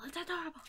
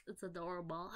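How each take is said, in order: First: High, squeaky adoring voice; playful baby-voice gushing; cutesy gushing. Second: Said in the usual way. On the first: Pretend. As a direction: repeat it as a high-pitched coo. Repeats it in a cutesy voice.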